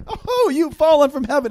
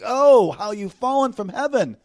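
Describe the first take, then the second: First: High, loud, light mock exclamation; wrong, unmournful reading. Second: High, slow, drawn-out mournful cry; grieving lamentation. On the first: Preacher showing how not to read the verse, mock exclamation. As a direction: toss it out high and quick, without the grief. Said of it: "not like". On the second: Preacher voicing the prophet's grief over the fallen one, lamentation. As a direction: lament it loudly, lingering on the OH. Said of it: "It's a grieving lamentation". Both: Shown as a demonstration.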